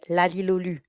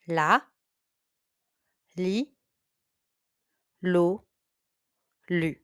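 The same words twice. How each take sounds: First: The syllables are said at a very fast pace. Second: The syllables are said at a moderate pace. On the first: "And even faster" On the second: "Repeat after me"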